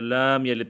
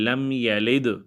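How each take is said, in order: First: The la syllable is stretched long. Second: No syllable is stretched; all vowels short. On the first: The speaker calls it wrong. "या लाम यलिद पढ़ते हैं" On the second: The speaker calls it right. "लाम को भी जो है लंबा नहीं करना और यलिद को भी लंबा नहीं करना"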